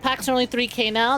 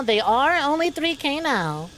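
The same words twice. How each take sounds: First: Said in the usual way. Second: Are stressed and drawn out, slower. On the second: Shown as a demonstration. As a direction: lean on the word are, slowly. Repeats price line, stressing it.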